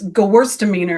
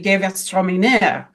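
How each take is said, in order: First: It is said the American way. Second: It is said the German way.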